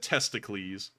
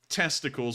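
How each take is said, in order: First: It is pronounced like an ancient Greek name. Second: It is pronounced the usual English way. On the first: "like the Greeks would" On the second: "instead of saying testicles"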